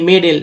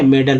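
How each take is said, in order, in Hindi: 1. दूसरा स्वर साफ़ 'e' ध्वनि है। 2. दूसरा स्वर छोटा 'uh' ध्वनि है। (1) "ए है तो ए को ए बोलेंगे" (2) "शुद्ध उच्चारण आप जानते हैं मेडल होता है"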